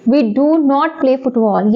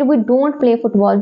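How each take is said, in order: First: The words do and not are said separately. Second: The words do and not merge into don't.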